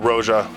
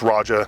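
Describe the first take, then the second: First: It does not sound like British 'Roger'. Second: It sounds like British 'Roger'. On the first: The speaker calls it wrong. "I'm not going to pronounce it wrong like everyone else" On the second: The speaker calls it right. "like a like a British person saying Roger"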